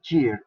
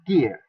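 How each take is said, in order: First: The word starts with a soft j sound. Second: The word starts with a hard g sound. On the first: The speaker calls it wrong. "this word attempt to uh, read saying Gear. It is wrong" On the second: The speaker calls it right. "in the accent, say gear"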